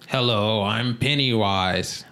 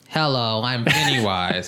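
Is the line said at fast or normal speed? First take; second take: normal; fast. First: The line is spoken at a normal pace. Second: The line is spoken very quickly. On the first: "Do Pennywise's voice" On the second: "What's he sound like at 2x speed?"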